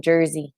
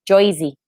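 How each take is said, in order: First: Said in the usual way. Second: Mock Jersey accent on Joyzy; bad Jersey accent. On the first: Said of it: "Do you guys talk like that?". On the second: Teasing a viewer from Jersey, badly faked Jersey accent. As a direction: try out a rough Jersey accent. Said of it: "I'm probably really bad at my accents".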